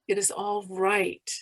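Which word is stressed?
right. The stress falls on the word right. "emphasize each word separately"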